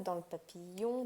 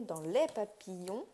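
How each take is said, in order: First: Said in the usual way. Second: "les" drawn out to mark the plural; slow down and lean on "les"; stress on LES. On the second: Real, not acted. Correcting self to plural for viewers, stress on "les".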